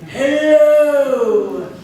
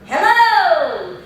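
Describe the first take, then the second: First: The voice is deep, from the diaphragm. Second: The voice has a round, open resonance.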